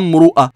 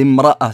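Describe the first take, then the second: First: The r is followed by a 'u' vowel. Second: The r is followed by an 'a' vowel. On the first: The speaker calls it wrong. "C'est pas mru'a" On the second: The speaker calls it right. "c'est imra'a cette fois-ci"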